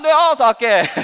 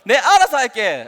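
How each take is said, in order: First: The words are slurred and mumbled together. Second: The words are pronounced fairly clearly.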